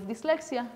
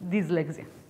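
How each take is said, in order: First: The middle consonant is a voiceless S sound. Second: The middle consonant is a voiced Z sound. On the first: "instead of dyslexia" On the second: "Z is the voiced form of S"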